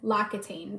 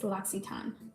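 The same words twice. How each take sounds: First: The name is said with an American pronunciation. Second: The name is said with a French pronunciation. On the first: The speaker calls it wrong. "as Americans, we want to say" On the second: The speaker calls it right. "It's L'Occitane"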